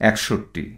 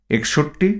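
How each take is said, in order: First: একষট্টি with an open æ at the start; spoken form with æ. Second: একষট্টি with a closed e at the start; spelling pronunciation with e. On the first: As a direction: say একষট্টি as "æk-shotti", softer and falling. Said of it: "যার উচ্চারণ হবে". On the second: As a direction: read একষট্টি as written, "ek-shotti", tone rising. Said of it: "তদ্ভব হবে". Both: Shown as a demonstration.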